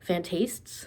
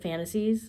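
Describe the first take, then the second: First: It is said following the spelling, fantastes. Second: It sounds like the English word fantasies. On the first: "It's spelled like it should be pronounced Fantastes" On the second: "I've been calling it Fantasies"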